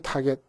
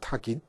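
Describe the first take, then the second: First: The second syllable has an 'e' vowel. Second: The second syllable has an 'i' vowel. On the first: This is how it is commonly said. "우리는 타겟, 타겟" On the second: This follows the English pronunciation. "영어 발음식으로 하니까 타깃이 돼요"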